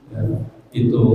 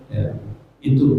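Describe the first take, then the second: Both takes have the same delivery.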